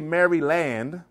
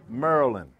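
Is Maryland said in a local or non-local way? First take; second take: non-local; local. First: It is said in a non-local pronunciation. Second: It is said in the local pronunciation. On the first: This is how outsiders say it. The speaker calls it wrong. "So I don't say Maryland" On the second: This is how locals say it. The speaker calls it right. "I say Maryland"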